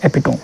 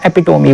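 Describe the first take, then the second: First: एपिटोम ending on a closed "tome" sound; two-syllable-ending pronunciation. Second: एपिटोमी ending in an "ee" sound; alternative pronunciation. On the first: Teacher giving students the first pronunciation, एपिटोम ending on m. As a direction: say एपिटोम with no vowel after the final m. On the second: Teacher offering students the other pronunciation, एपिटोमी ending in "mee". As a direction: say एपिटोमी with a final "mee" syllable. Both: Shown as a demonstration. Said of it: "सही pronunciation है".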